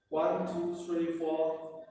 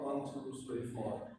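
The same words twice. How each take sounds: First: Said in the usual way. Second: Fading exhale count. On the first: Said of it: "just try breathe in". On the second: Shown as a demonstration. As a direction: count softer as the breath runs out. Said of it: "breathe out".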